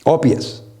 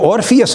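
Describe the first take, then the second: First: The r sound after the first vowel is dropped. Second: The r sound after the first vowel is pronounced. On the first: "British accent में ... इसको ओपायस कहते हैं ... और को काट देते हैं" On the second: "ये जो ऑर्फियस मैं कह रहा हूँ"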